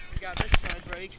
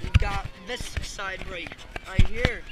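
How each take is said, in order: First: Said in the usual way. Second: Slow, loud drawn-out explaining. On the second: Shown as a demonstration. Showing the viewer the tractor's side brake, slow and loud. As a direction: spell it out slowly like a guide.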